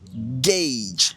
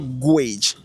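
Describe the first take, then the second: First: The vowel sounds like an A. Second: The vowel sounds like a U. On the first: The speaker calls it right. "ça sera gauge" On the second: The speaker calls it wrong. "Ça ne sera pas gauge. C'est-à-dire, on n'a pas le U ici"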